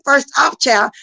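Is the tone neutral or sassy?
sassy. It is said with a sassy, confrontational attitude.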